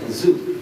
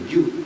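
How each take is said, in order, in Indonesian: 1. Lidah berada di belakang gigi, bunyi 'z' yang bergetar. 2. Bibir dirapatkan, menghasilkan bunyi 'j'. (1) "Kalau enggak digigit jadi zai" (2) "sampai dikempit bibirnya jadi ju"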